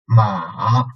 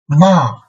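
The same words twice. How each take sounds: First: It is said with the third tone. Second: It is said with the fourth tone. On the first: "third tone" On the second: "and fourth tone"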